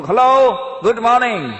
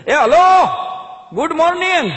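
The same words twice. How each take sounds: First: A bright, louder, higher hello, good morning; loud greeting. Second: Bellowed, much higher and louder hello, good morning; shouted greeting. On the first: Acted. Foreigner calling good morning to his neighbour, loud and high. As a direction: call the greeting across the street. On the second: Retold or imitated. Chaman yelling good morning at the foreigner across the street. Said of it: "ચમને રાડ પાડી".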